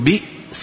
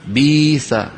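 First: A glottal stop is heard in the word. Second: The glottal stop is replaced by a y sound. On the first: "بدلا من أن يقولوا بئس" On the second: "يقولون بيس"

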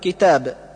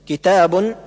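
First: The word ends without an n sound. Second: The word ends with an n sound. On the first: "وتسقط وقفا" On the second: "تثبت وصلا"

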